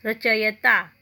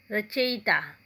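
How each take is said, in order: First: रचयिता said rachayata with ya in the third syllable; a touch louder, रचयिता as the wrong form; रचयिता with ya, not yi; wrong pronunciation. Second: रचयिता with yi in the third syllable, rachyita; रचयिता said right with the i; the corrected रचयिता; correct pronunciation. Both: Shown as a demonstration. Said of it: "शुद्ध कैसे किया जाता है".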